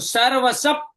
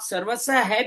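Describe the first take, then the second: First: The final visarga is voiced as a p sound. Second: The final visarga is voiced with an h-echo. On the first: "अगला अक्षर जो प्यार है उसका उच्चारण भी इसमें ले सकते हैं" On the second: "सर्वस है भी कह सकते हैं"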